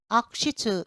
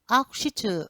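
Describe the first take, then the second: First: The ku syllable is nearly silent, like a weak k. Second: The same.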